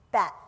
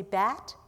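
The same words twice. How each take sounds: First: Short "Bat", echoed without the questioning rise; learner's repetition. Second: "bat" lifted in a rising question; teacher's model word. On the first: Mum repeats after her teacher, a short answering "Bat". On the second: Hattie tests Mum's vowels, modelling "bat" with a rise. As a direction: model "bat" with the pitch sliding up. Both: A narrator's reading. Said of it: "noting problems".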